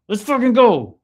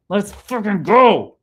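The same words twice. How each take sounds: First: Even higher, louder hype shout; hyped yell. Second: Slow, drawn-out hype shout, higher and louder; hyped yell. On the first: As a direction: belt it out, all fired up. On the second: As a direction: roar it out like a pumped-up fan. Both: Real, not acted. Hyped by a chat comment.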